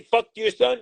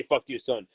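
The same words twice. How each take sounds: First: "Fuck to your son" rising high at the end, mock disbelief; incredulous question. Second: "Fuck to your son" low and falling, conceding; flat admission. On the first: Manager mock-questioning the accusation, rising incredulous tone. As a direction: ask "Fuck to your son" as if it's absurd. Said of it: "did I say". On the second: Retold or imitated. Manager admitting what he said, low flat concession. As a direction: drop "Fuck to your son" down flatly, owning it. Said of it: "Yes, I did say".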